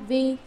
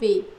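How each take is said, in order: First: The word is said with a level tone. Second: The word is said with a departing tone. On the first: "hai âm bình thanh" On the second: "khứ thanh"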